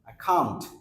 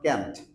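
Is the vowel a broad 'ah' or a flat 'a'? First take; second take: broad ah; flat a. First: The vowel is a broad open 'ah' sound. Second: The vowel is a flat front 'a' sound. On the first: The speaker calls it right. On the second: The speaker calls it wrong. "Not ক্যান্ট"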